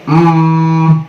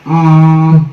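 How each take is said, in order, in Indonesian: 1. Bunyi m itu sengau yang penuh dan tertutup rapat. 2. Bunyi m itu sengau yang penuh dan tertutup rapat.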